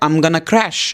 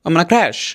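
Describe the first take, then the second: First: It is said slowly with each word clear. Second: It is said fast with the words run together.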